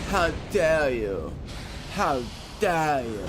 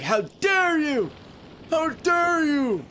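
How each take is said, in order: First: Slow, mildly mocking outrage; a light hint of the climate activist's speech; global warming girl. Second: Very high, slow, drawn-out outraged cry; outraged dweeb kid. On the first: Imitating that global warming girl's famous line, slow and lightly mocking. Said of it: "Where she was like". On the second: Retold or imitated. Imitating the dweeb kid who was screaming disgusting at him, very high and slow. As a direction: stretch each word way up like a squealing nerd. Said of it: "He sounded like".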